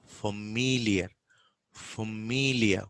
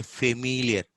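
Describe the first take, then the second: First: Familiar slowly, with "fuh" first; weak first vowel in slow "familiar"; schwa. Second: Familiar with a clear "fe" first; full first vowel in "familiar"; A substituted. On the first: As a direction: say "familiar" as "fuh-MEE-lia", stretched. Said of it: "it is a". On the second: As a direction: say "familiar" as "fay-miliar". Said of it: "We substitute this sound with A". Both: Shown as a demonstration.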